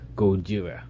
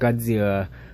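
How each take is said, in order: First: The name is said the Japanese way. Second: The name is said the usual English way. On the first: "the Japanese version of how it's supposed to be said" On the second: "Not Godzilla"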